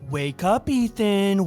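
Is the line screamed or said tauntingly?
tauntingly. It is said in a mocking, taunting tone. The speaker calls it right. "Not really a scream, more like a taunt"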